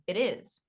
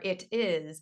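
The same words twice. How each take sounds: First: The t is a soft flap linking both words. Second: The t is a hard, separate t sound. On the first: The speaker calls it right. "I'd say it is" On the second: The speaker calls it wrong. "it might be it is or it is, and it's really challenging for them to get that"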